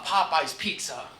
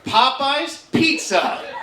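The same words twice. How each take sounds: First: It is said at normal speed. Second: It is said slowly.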